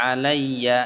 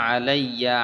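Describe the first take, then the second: No difference in how they are said.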